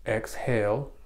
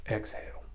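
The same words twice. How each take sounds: First: Said in the usual way. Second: Breathy whisper, very soft; whispered on the out-breath. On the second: Shown as a demonstration. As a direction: breathe the word out. Cueing the breath in demo.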